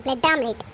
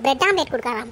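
First: Scornful mutter. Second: Lower, sneering repeat of bread omelette; mock her offer with disgust; scornful mimicry. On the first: Acted. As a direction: lower and softer, dismissive "bread omelette". (வெறுப்போடு மெதுவாக "bread omelette") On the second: (ஏளனமாக "bread omelette" என்று திருப்பிச் சொல்லுதல்) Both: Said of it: "என்னது, bread ஆம்லெட்டா?".

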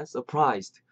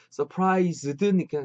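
First: Surprised ending in a light unvoiced "st"; light final st. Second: Surprised with a spelled-out final "zeu-deu"; full ending. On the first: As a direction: close surprised on a crisp st, no added vowel. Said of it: "끝에 이 소리 느끼세요?". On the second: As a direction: say surprised with extra vowels after z and d. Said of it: "근데 끝에 이 소리 느끼세요?". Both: Shown as a demonstration.

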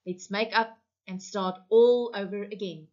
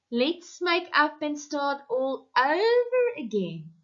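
First: Said in the usual way. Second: Higher, mocking repeat of the radio line; bitter mockery. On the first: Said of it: "Sam choked up". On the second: Wife throwing the radio plea back at her husband, bitterly. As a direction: parrot the host's words with contempt. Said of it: "she said bitterly".

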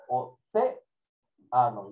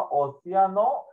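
First: "océano" drawn out with a marked "cé"; teacher's slow "océano", pausing after accented "cé"; stress on the accented E. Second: Said in the usual way. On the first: Shown as a demonstration. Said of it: "lleva tilde en la E".

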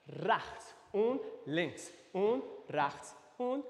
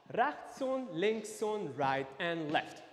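First: Slow, drawn-out step count. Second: A bit faster. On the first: Dance teacher walking class through steps, slow count. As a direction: stretch each step word out slowly. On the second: Dance teacher speeding up the steps, a bit faster. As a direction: step count a little quicker, still measured. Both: Shown as a demonstration. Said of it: "Ein bisschen schneller".

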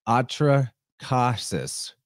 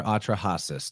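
First: "Atrahasis" with a hard K, as Atra-KAH-sis; K pronunciation. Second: "Atrahasis" with a breath H, as Atra-HAH-sis; H pronunciation. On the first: Host giving one version of the name, "Atrahasis" said slowly with a K. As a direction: draw out "Atrahasis" very slowly, K sound before "hasis". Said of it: "depending on who you ask". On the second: Host offering the other version, "Atrahasis" with an H sound. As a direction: say "Atrahasis" with H instead of K. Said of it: "I like the K better". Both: Shown as a demonstration.

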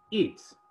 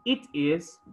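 First: "its" as one contracted syllable; forma abreviada. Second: Said in the usual way. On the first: Shown as a demonstration. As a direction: squeeze it is into "its". ("its" contraído en una sílaba)

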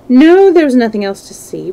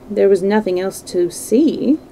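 First: "No" high and loud, then falling through "see"; emphatic denial. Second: "There was nothing else to see" as a tentative question. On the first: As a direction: hit "No" hard and close the matter. Dorian's firm denial of the question. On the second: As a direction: lift "see" slightly, asking for confirmation. Painter asks, Dorian answers alike. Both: Acted.

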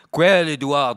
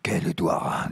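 First: Said in the usual way. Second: "Quel Édouard?" whispered, no voice; whispered question. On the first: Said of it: "demanda la patronne à voix basse". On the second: Acted. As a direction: hush it, breath only. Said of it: "Là, je me suis trompé, c'était à voix basse".

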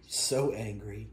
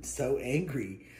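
First: Drawn-out teasing to the cat; slow tease. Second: Slow teasing to the cat; slow mock sympathy; slow drawn-out. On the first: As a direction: stretch it slowly, teasing. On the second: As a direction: stretch every sound, teasing. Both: Real, not acted.

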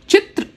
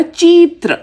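First: चित्र said with a quick short i; short i in chitra. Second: चीत्र said with a drawn-out ii; long ii in cheetra. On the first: Teacher showing the correct short-vowel word. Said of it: "ई sound के साथ होगा चित्र". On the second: Teacher showing the wrong long-vowel word. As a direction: stretch the first vowel of चीत्र. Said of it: "बड़ी ई का sound निकालूंगी". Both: Shown as a demonstration.

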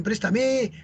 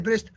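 First: Said in the usual way. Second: "presta" said short, stress on "pres"; stressed on the first syllable. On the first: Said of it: "todos dicen". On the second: Shown as a demonstration. Teacher showing the form nobody uses, "presta". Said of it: "Pero nadie dice".

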